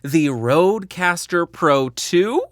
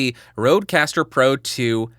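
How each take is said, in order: First: It ends with a questioning upward rise. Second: It is said as a plain statement, no rise. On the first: The speaker is unsure about the name. The speaker calls it wrong. "which is how I have always said that in the past" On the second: The speaker is confident about the name. The speaker calls it right. "I said Rodecaster Pro two without ending it with a question mark"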